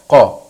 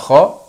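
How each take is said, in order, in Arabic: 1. يبدأ بصوت q العميق من الحلق. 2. يبدأ بصوت kh الخشن. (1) "ولكن النطق الصحيح قا" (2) "في بعض الناس يقولوها خا"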